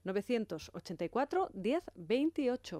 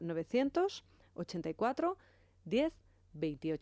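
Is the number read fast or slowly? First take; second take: fast; slowly. First: The number is read at normal speed. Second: The number is read more slowly.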